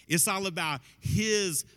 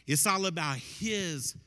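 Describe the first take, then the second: No difference in how they are said.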